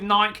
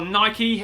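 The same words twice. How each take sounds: First: The name is said the British way. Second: The name is said the American way. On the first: "That's sort of what we've been brought up with here in the U K" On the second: "or Nike if you're uh, this side of the pond, that side of the pond"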